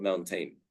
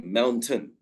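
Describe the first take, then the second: First: "mountain" ending in a long "tain"; mispronunciation. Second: "mountain" ending in a short "tun"; correct pronunciation. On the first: Teacher showing what to avoid, "mountain" said as moun-tain. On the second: Teacher correcting learners, "mountain" said as moun-tun. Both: Shown as a demonstration. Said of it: "we say tun, not mountain".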